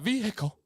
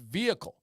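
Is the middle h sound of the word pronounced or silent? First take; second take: pronounced; silent. First: The middle h sound is clearly pronounced. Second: The middle h sound is silent. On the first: The speaker calls it wrong. "we don't need a hiccup in the middle of saying a word" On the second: The speaker calls it right. "It's vehicle"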